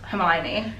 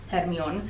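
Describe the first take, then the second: First: The name is pronounced the standard English way. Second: The name is pronounced in an unusual way. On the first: This is how the films say the name. The speaker calls it right. "that's how you pronounce Hermione" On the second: This is how a translation rendered the name. The speaker calls it wrong. "they pronounced it very weirdly"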